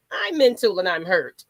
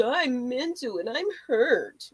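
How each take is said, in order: First: Said in the usual way. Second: Slow, drawn-out mock self-pity; mocking whiny excuse. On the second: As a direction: mimic someone milking their hurt. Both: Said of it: "Somebody's treading lightly".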